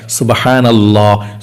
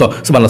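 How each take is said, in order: First: It is said slowly, one per breath. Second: It is said fast, run together.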